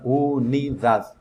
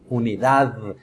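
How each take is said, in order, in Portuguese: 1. A palavra termina na consoante, sem vogal. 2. A palavra termina com uma vogal final acrescentada. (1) "em espanhol não tem essa letra E do final" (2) "Então você não vai pronunciar assim"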